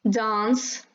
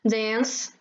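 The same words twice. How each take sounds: First: It is said in a British accent. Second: It is said in an American accent. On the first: "British English"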